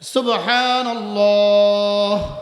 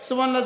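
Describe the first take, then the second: First: It is said slowly, once in a breath. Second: It is said rapidly, many in a breath.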